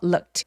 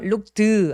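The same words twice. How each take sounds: First: The word ends in a voiceless T sound. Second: The word ends in a voiced D sound. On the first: The speaker calls it right. "통째로 t로 발음해 주셔야 돼요" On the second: The speaker calls it wrong. "안 돼요"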